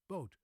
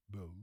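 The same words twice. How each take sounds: First: Boat short with an unmoving O; Dutch flat O. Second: Boat with a gliding English O; English pronunciation. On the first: Teacher alternating for contrast, Dutch boot. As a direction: clip boat with a flat vowel. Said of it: "It's a very flat O". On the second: Teacher alternating for contrast, English boat. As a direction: round boat off toward oo. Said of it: "the English O". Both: Shown as a demonstration.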